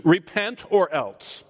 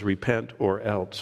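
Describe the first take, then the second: First: "Repent or else" slow and stern, weight on "or"; stern warning. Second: "Repent or else" lower, softer and slow; low stern warning. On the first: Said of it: "This is a little different Jesus". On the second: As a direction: drop the voice on "Repent or else" as a quiet threat. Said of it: "And he says". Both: Shown as a demonstration.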